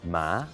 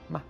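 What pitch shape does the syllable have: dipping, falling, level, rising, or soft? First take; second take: rising; soft. First: The pitch rises from lower to higher. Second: The syllable is short and soft, without clear contour. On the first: "The second tone goes from lower to higher" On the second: "a little sort of soft one"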